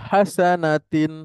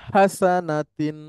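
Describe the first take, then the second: The two takes are said the same way.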